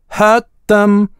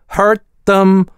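First: It is said in a non-American accent. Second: It is said in an American accent.

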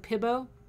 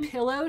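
First: The middle consonant is a B sound. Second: The middle consonant is an L sound. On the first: "she wouldn't say her L's. She'd say B's" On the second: "instead of pillow"

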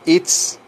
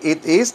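First: It is said as one contracted syllable. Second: It is said as two separate words. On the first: "digo it's" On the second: "en vez de decir it is"

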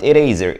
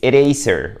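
First: The middle consonant is a buzzing z sound. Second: The middle consonant is a hissing s sound. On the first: The speaker calls it wrong. "It's not eraser" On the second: The speaker calls it right. "it's eraser with S, with S, not Z"

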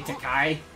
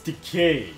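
First: The last syllable does not rhyme with 'gay'. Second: The last syllable rhymes with 'gay'. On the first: The speaker calls it wrong. "people get his name wrong because they say Takai" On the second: The speaker calls it right.

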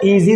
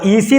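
First: The middle consonant is a buzzing z sound. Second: The middle consonant is a hissing s sound. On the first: The speaker calls it right. "Letter എസ് ആണെങ്കിലും ഇതിൻ്റെ ഉച്ചാരണം സെഡ് ആണ്" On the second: The speaker calls it wrong. "ഈസി എന്ന് വായിക്കാതെ"

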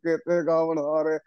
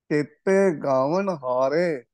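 First: It is rushed, with vowel and nasal marks dropped. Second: It is careful, with each vowel and nasal clear. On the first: The speaker calls it wrong. "ਇਹ ਗਲਤ ਉਚਾਰਨ ਹੈ।" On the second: The speaker calls it right. "ਸ਼ੁੱਧ ਪਾਠ"

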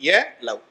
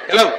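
First: The phrase is said slowly. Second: The phrase is said quickly. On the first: "மனசுல மெதுவா சொல்லுங்க" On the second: "கொஞ்சம் வேகமா"

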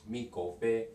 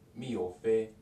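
First: The k sound is clearly pronounced. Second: The k sound is dropped in fast speech.

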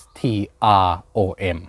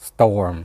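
First: The word begins with 'stro', with 'r' after 't'. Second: The word begins with 'sto' and has no 'r' after 't'. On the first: The speaker calls it wrong. "ไม่ใช่" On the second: The speaker calls it right. "แต่มันเป็น STORM"

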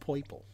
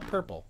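First: The first vowel sounds like 'oy'. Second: The first vowel sounds like 'er'. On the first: The speaker calls it right. "it's gotta be said correctly" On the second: The speaker calls it wrong. "It's not purple"

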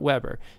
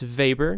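First: It sounds like the grill brand name. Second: It does not sound like the grill brand. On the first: The speaker calls it wrong. "not Weber" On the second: The speaker calls it right. "notice that it's Weber"

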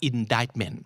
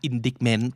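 First: One written letter is left silent. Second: Every written letter is sounded, as spelled. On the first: The speaker calls it right. "แต่จริงๆอ่านว่า" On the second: The speaker calls it wrong. "หน้าตาเหมือนอ่าน"

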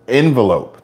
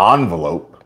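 First: The first syllable sounds like 'en'. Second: The first syllable sounds like 'on'. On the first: The speaker calls it right. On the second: The speaker calls it wrong. "It's not an O-N-V-E-L"

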